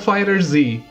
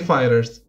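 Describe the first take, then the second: First: The name ends with a separate 'zee' sound. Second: The name ends with a plain 's' sound. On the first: The speaker calls it wrong. "you're saying the name of this game wrong" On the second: The speaker calls it right. "you're actually supposed to say fighters"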